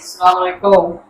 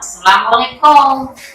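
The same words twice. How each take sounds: First: The greeting sounds flat, without a smile. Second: The greeting sounds soft and smiling. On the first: It does not come from the heart. The speaker calls it wrong. "there's no smile" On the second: It comes from the heart. The speaker calls it right. "you can hear it's coming from the heart"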